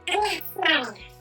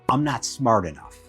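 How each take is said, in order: First: It is said in a squeaky cartoon voice. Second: It is said in a normal voice.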